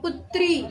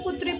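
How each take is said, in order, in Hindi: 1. अंतिम स्वर लंबा और जोर वाला है। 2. अंतिम स्वर छोटा है। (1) "तो ई पे हम ज्यादा जोर देते हैं" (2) "कई लोग इसमें छोटा ई लगा देते हैं"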